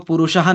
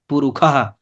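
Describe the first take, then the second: First: The middle consonant is a retroflex sh sound. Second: The middle consonant is a kh sound. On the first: "पुरुषः ना बोल करके" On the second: "उससे क्या बोलते हैं, पुरुखः"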